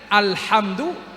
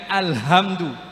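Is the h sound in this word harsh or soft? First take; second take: harsh; soft. First: The h is harsh, pressed from mid-throat. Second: The h is soft, a plain breathy sound. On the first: The speaker calls it right. "Ha itu di tengah tenggorokan di sini" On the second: The speaker calls it wrong. "jangan alhamdu"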